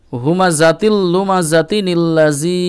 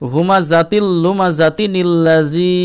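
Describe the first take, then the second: The two takes are said the same way.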